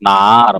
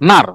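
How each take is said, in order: First: It is said with a dipping third tone. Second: It is said with a falling fourth tone. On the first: It means where. "Third টোনে বললে নার মানে কোথায়" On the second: It means there. "Fourth টোনে বললে কিন্তু হবে ওইখানে"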